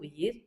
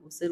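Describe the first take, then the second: First: The middle consonant is a y sound. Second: The middle consonant is an s sound. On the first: This is the formal written form. The speaker calls it right. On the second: This is the colloquial spoken form. The speaker calls it wrong.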